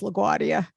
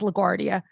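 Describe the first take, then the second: First: The R sound in the word is dropped. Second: The R sound in the word is pronounced. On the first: This is how a family member says it. The speaker calls it wrong. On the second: This is the usual way to say it. The speaker calls it right.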